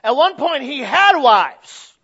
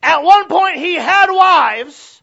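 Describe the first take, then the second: First: Loud emphatic preaching. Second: Higher, louder, slow shouted repeat; full shout. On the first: Repeated line, second louder. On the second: Preacher repeating his point about David's wives, shouting. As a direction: hit it harder the second time. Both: Acted.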